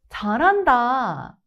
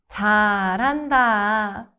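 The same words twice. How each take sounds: First: It is said in a sincere tone. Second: It is said in a sarcastic tone. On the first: "the sincere version" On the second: "then the sarcastic version"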